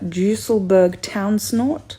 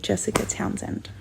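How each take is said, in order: First: The name is said in an unusual, altered form. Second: The name is said in its everyday form. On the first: This is the technically correct form of the name. "technically, the correct pronunciation is" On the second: This is how most people say the name. "I am totally fine if you just call me"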